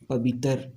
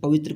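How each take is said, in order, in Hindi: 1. शब्द का अंत अलग 'tar' ध्वनि से होता है। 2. शब्द का अंत 'tra' जैसी संयुक्त ध्वनि से होता है। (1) "बोलेगा पवित्र" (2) "पवित्र को"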